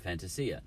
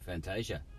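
First: The name is pronounced the Italian way. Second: The name is pronounced the English way. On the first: The name's original culture is respected. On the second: The name is adapted to local habit.

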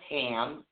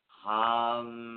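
First: The vowel sounds like the one in 'cat'. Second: The vowel sounds like the one in 'cup'. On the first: The speaker calls it wrong. "it's not pronounced ham" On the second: The speaker calls it right. "It's hum"

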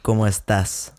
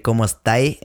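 First: It is said with a standard Spanish accent. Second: It is said with a Chilean slang accent. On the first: "Which is how you're supposed to say it" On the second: "in Chile, they say"

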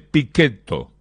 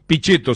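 First: The name is pronounced the Italian way. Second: The name is pronounced the Spanish way.

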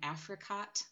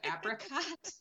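First: The middle consonant is an f sound. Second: The middle consonant is a p sound. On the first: A young child says it this way. The speaker calls it wrong. "she's been saying Africot" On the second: This is the standard form. The speaker calls it right. "instead of apricot"

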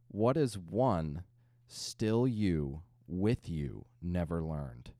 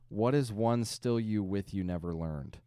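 First: It is read slowly, word by word. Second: It is read at a normal, quicker pace. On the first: "Word for word" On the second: "So now I will read it at normal speed"

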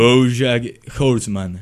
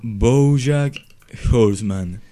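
First: The name is said more slowly. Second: The name is said very slowly.

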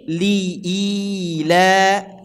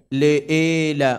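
First: The first vowel sounds like 'i'. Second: The first vowel sounds like 'e'. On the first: The speaker calls it right. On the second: The speaker calls it wrong. "Le'ila, bukan"

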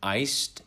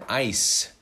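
First: The word ends with an audible D sound. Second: The word ends without any D sound. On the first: "So the difference is iced" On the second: "You don't have the D there"

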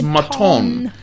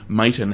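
First: The surname is said the French way. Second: The surname is said the everyday anglicized way. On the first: This is the insisted-upon original form. The speaker calls it right. "no, it's Maton" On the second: This is how the family usually says it. The speaker calls it wrong. "whenever we say Maton"

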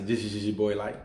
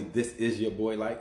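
First: The words run together, pitch rising upward. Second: The words are said separately and distinctly. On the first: "It's like this all run in together, mushed upward" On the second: "I don't say"

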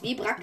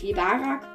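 First: The name is said with two syllables. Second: The name is said with three syllables. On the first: The speaker calls it right. "er ist übrigens Webrak" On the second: The speaker calls it wrong. "nicht Webarak"

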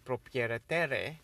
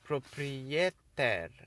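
First: A vowel sound is heard after the final R. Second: The final R is heard with no vowel after it. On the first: The speaker calls it wrong. "I didn't say proprietaire" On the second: The speaker calls it right. "I pronounced the R, but not the E"

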